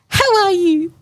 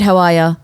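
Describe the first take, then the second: First: It is said in a high baby voice. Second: It is said in a normal adult voice. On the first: The dog is addressed like a baby. The speaker calls it right. "That's how you talk to a dog" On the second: The dog is addressed like a grown person. The speaker calls it wrong. "talk to their dogs in a normal human way, like not in a baby voice"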